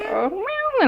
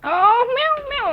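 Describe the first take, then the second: First: Put-on playful meow for a toddler; cat meow. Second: High playful meow; cat meow. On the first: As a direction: meow like a kitty to teach. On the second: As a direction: meow brightly for the child. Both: Shown as a demonstration. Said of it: "like that".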